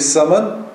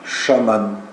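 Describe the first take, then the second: First: The word begins with an s sound. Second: The word begins with a sh sound. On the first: This is the northern form. "там, где пишется русское «ц», северяне говорят «с»" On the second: This is the other southern form. "Или вместо «ц» он произносит «ш»"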